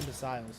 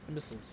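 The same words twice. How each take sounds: First: The ending is said like the word missile. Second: The ending is not said like missile. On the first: The speaker calls it wrong. "not imbeciles. I'm saying it like that's a missile that you take" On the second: The speaker calls it right.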